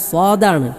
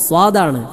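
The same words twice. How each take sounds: No difference in how they are said.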